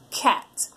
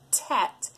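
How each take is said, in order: First: It begins with a K sound made at the back. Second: It begins with a T sound made at the front. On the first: The speaker calls it right. "the sound coming from back in their throat" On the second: The speaker calls it wrong. "their tongue is tapping behind their front teeth"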